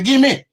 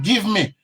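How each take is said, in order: First: It is said in a Patois accent. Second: It is said in an English accent.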